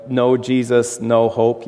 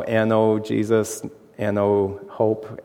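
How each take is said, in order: First: Said in the usual way. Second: N O spelled out letter by letter, slow and soft. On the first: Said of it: "it sounds like a church sign". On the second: Shown as a demonstration. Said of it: "they put a K N O W".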